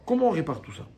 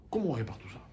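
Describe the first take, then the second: First: Said in the usual way. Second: Hushed unvoiced whisper, drawing the class in; whispered question. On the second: Shown as a demonstration. Teacher whispers a rhetorical question to students, hushed.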